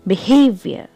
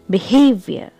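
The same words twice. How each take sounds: First: The stress is on the second syllable. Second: The same.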